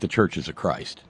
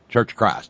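First: The name is said in full, with every syllable. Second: The name is clipped, with a Southern drawl.

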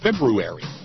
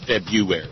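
First: The R after 'Feb' is clearly sounded. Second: The R after 'Feb' is left out. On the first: The speaker calls it right. "there's an R in there, damn it. I'm going to try to pronounce it" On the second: The speaker calls it wrong. "Most people just punt and say February"

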